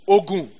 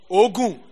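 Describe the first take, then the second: First: It has the tone pattern of the word for medicine. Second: It has the tone pattern of the word for sweat. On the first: The word means medicine. "Ogun, medicine" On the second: The word means sweat. "Ogun. Sweat"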